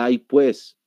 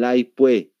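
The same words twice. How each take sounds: First: The final s sound is clearly pronounced. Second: The final s sound is left out. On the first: This is not how people in that region say it. "no dicen el ay pues" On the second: This is how people in that region say it. "no pronuncian lo que es la S"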